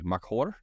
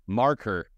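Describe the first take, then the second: First: It does not sound like the word 'marker'. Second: It sounds just like the word 'marker'. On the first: The speaker calls it wrong. "we're saying it way incorrectly" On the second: The speaker calls it right. "Like a marker"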